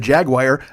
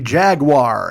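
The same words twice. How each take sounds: First: The last part is not said like 'war'. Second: The last part is said like 'war'. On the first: The speaker calls it wrong. "screwed up and said Jaguar" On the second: The speaker calls it right. "Wars, like W A R, war"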